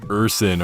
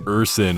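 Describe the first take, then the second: First: The word is said with an S sound. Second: The word is said with an S sound.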